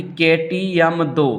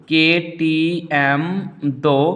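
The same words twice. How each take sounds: First: Said in the usual way. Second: "के T M दो" very slow, piece by piece; slow dictation. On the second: Shown as a demonstration. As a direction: spell out "के T M दो" slowly for memorising. Repeats mnemonic to be memorised.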